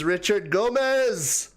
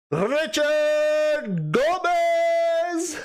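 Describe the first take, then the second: First: Said in the usual way. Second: Drawn-out swoon. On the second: Shown as a demonstration. Streamer swooning as she repeats a viewer's name. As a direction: swoon over the name, long and high.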